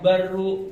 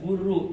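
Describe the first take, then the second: First: The vowel after the first b is a. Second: The vowel after the first b is u. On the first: "boleh dibaca baru" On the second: "boleh dibaca buru"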